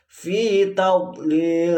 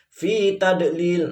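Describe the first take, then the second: First: The d sound is emphatic, puffed from the cheeks. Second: The d sound is plain, not from the cheeks. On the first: The speaker calls it right. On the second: The speaker calls it wrong.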